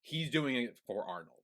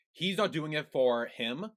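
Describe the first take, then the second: First: "Arnold" landed with a slow fall; slow, settle firmly on "Arnold"; stress on Arnold. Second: "not" slowed and rising, stressed. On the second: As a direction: lean on "not" slowly. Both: Real, not acted. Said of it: "contrast him versus Arnold".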